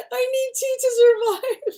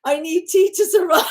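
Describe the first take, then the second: First: Much higher, whimpering through laughter; cartoonish fake-crying waif; mock pitiful, laughing. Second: High, whiny mock plea; hammed-up poor waif; mock pitiful. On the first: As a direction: overdo the starving waif plea, giggling. Repeated, more hammed. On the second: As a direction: beg for tea like a starving waif. Dramatic poor-me bit.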